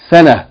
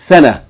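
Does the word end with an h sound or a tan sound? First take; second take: h sound; h sound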